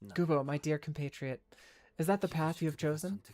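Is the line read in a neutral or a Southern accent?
neutral. It is read in a plain, neutral accent.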